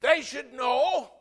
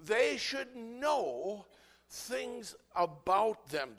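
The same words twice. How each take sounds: First: Loud, slow, high declaration; emphatic shout. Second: Slow, stretched, raised repeat; drawn-out emphasis. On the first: Preacher booming at the congregation. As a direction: hammer home each word. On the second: Preacher repeating the point slowly to the church. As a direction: draw every word out. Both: Real, not acted.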